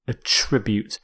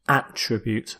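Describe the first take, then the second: First: The stress is on the second syllable. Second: The stress is on the first syllable. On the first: It is used as a verb. "here as a verb" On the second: It is used as a noun. "as a noun where you stress the first"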